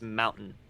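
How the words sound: The middle t is dropped, Colorado style.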